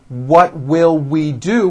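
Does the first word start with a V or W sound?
W sound. The first word starts with a rounded W sound.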